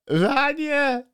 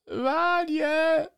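First: It is said in a put-on voice. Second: The same.

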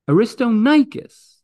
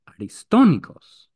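First: The name is said in an English-style pronunciation. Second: The name is said in a Greek-style pronunciation. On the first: The speaker calls it wrong. "that's not Greek" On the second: The speaker calls it right. "Greek will tell you the name is Aristonikos"

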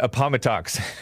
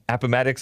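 First: It uses a spelling-based, non-local pronunciation. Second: It uses the pronunciation locals use. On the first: The speaker calls it wrong. "I used to call it Appomattox" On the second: The speaker calls it right. "I think is what it's pronounced"

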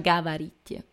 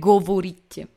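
First: The unstressed vowels are pronounced as A. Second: The unstressed vowels are pronounced as O. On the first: This is how the word is actually spoken. "si pronuncia gavarit, perché quella O non è accentata e diventa una A" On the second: This is how the word is written. "si scrive govorit"

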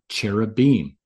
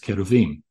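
First: It is said with the usual English pronunciation. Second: It is said with the original Hebrew pronunciation. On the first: The speaker calls it wrong. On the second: The speaker calls it right.

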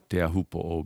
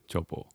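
First: The word begins with a t sound, fully spelled out. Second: The word begins with a ch sound, clipped short. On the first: This is the formal, old-fashioned form. "which is absolutely correct. But that's not how it's pronounced in Tahiti" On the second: This is the everyday local form. "the T often turns into like a CH sound"

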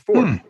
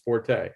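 First: The word has one syllable, with no final vowel. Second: The word has two syllables, ending in a vowel. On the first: "without the E is silent. It's just fort" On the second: "by most people is forte"

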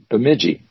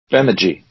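First: The stress is on the middle syllable. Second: The stress is on the first syllable. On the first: The speaker calls it wrong. "It's easy to pronounce it Bemidji, but that would be wrong" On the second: The speaker calls it right. "It's the first one gets emphasized"

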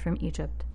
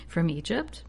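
First: The pitch stays flat with no question rise. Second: The pitch rises at the end like a question. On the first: The speaker calls it wrong. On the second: The speaker calls it right.

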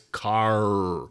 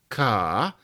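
First: The final R is pronounced, West Country style. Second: The final R is dropped.

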